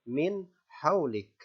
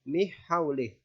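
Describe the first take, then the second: First: The n sound is clear and distinct. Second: The n sound is dropped into the h. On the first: The speaker calls it right. "nun dibaca jelas" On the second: The speaker calls it wrong. "Atau dimasukkan ke huruf ha"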